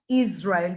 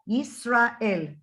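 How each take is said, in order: First: The middle consonant is a z sound. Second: The middle consonant is an s sound. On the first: The speaker calls it wrong. "It's not Israel. There is no Z in our name" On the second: The speaker calls it right. "There is an S"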